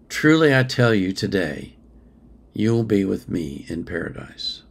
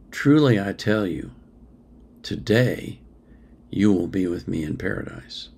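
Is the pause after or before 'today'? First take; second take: after; before. First: The pause comes after the word 'today'. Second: The pause comes before the word 'today'. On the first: The promise is made today; being in paradise comes later. "Take the comma out" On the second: They will be in paradise this very day. "The comma makes all the difference"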